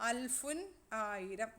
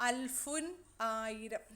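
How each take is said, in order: The two takes are said the same way.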